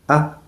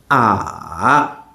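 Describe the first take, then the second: First: The vowel is short and very light. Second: The pitch dips down, then rises. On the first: "And the neutral tone" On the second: "Third tone"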